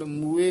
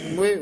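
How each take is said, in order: First: The first vowel is a long oo. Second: The first vowel is a short u. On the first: The speaker calls it wrong. "ਮੂਏ ਨਹੀਂ ਕਹਿਣਾ" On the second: The speaker calls it right. "ਮੁਏ ਉਚਾਰਨ ਕਰਨਾ ਮੰਮੇ ਔਂਕੜ"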